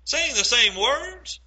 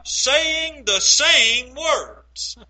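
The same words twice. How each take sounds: First: Laughing, rising disbelief on "Saying the same words?"; preacher laughing at the irony with the congregation; amused question. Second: "same" dwelt on, each word drawn out very slowly; preacher stressing the point for the congregation; slow deliberate emphasis. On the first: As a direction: chuckle it back as a slow, incredulous question. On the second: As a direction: spell out "saying the same words" word by word, leaning on "same". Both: Shown as a demonstration.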